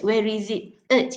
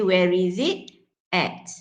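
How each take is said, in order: First: The final word is reduced to a weak vowel. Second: The final word has its full strong vowel. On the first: The speaker calls it wrong. "you don't say it" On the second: The speaker calls it right. "you say where is it at"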